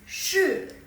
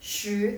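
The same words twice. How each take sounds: First: The syllable is said with the fourth tone. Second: The syllable is said with the second tone. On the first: "nada keempat" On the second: "nada kedua lagi"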